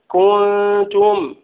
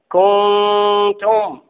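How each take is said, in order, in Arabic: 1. تُنطق الحركة مع ضم الشفتين. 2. تُنطق الحركة بدون ضم الشفتين. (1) "ضم الشفتين هذا مهم" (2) "لأن كوني أقول كنتم ليست هي كنتم"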